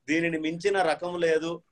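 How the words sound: The break falls after 'minchina', before 'rakamu'.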